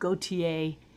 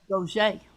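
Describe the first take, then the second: First: The name is said like Gautier, ending in ay. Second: The name is said like Gaucher, with a sh. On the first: This is how it is said in some places. "In some places they go with" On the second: This is how it is said where the speaker grew up. "down in Thibodeau, where I was uh, pretty much raised, it's"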